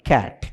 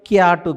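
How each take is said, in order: First: It has an English 'a' vowel and no final vowel. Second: It has a 'yaa' vowel and a final 'u'. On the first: The speaker calls it right. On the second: The speaker calls it wrong. "క్యాటు కాదు"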